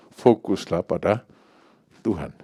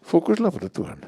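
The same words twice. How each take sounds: First: Said in the usual way. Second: "Fokuslah pada Tuhan" said much higher, leaning on "Fokuslah"; emphatic repeat. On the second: Shown as a demonstration. Preacher repeats his call to the congregation, pitched high. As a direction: lift "Fokuslah" high and let "Tuhan" fall.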